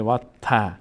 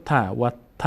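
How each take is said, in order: First: "و ت" ending in a long aa. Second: "و ت" with a short final a. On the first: Teacher shows the alef's effect, long aa ending on "و ت". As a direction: lengthen the vowel of "ت" in "و ت" to aa. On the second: Teacher shows reading without alef, short a ending on "و ت". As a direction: keep the vowel of "ت" short, as if no alef. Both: Shown as a demonstration.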